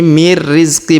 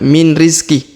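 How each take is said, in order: First: The n merges into a held, pressed r. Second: The n is pronounced clearly before the r. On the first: The speaker calls it right. "Jadi mir rizqi" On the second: The speaker calls it wrong. "bukan min rizki"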